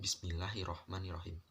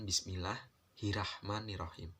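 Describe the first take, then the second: First: The first r is followed by an o vowel. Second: The first r is followed by an a vowel. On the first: The speaker calls it right. "Itu Bismillahirrohmanirrohim" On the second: The speaker calls it wrong. "bukan Bismillahirrahmanirrohim"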